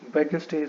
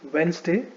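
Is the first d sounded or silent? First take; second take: sounded; silent. First: The first d is pronounced. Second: The first d is silent. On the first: The speaker calls it wrong. "Wednesday is wrong" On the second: The speaker calls it right. "Wednesday is right"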